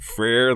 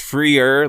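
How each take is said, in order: First: The name rhymes with the word deer. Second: The name sounds like free with an r added. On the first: The speaker calls it wrong. "like deer" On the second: The speaker calls it right. "like free"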